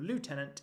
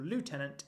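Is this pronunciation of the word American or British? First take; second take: American; American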